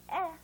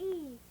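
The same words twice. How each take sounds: First: Eh as in "bed"; brief, open "eh"; short E. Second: E drawn out as "ee"; long E. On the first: Teacher naming the short sound for pupils, short eh. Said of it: "the short sound is". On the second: Teacher naming the long sound for pupils, long E. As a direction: hold E like its letter name. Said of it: "the long sound is". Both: Shown as a demonstration.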